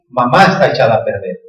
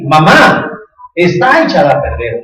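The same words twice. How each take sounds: First: There is no pause after Mamá. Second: There is a pause after Mamá.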